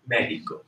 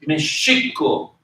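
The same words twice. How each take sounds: First: Mexico as MEH-hee-ko; modern Spanish pronunciation. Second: Mexico as meh-SHEE-ko, slowly; early pronunciation. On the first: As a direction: say the X in "Mexico" as a soft h. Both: Shown as a demonstration. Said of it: "the early pronunciation for Mexico".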